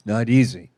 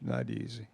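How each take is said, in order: First: Louder, falling and firm; a firm, loud "not easy"; firm declaration. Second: Much lower and softer, gentle rise; a hushed "not easy" echo. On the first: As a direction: land it hard like a truth. Preacher stresses hardship to congregation. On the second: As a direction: let it fall back quietly to yourself. Preacher echoes his own point. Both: Real, not acted.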